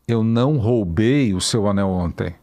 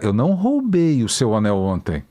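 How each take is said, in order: First: Emphasis is marked with a lower pitch. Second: Emphasis is marked with a higher pitch. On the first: "O grave" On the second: "O agudo"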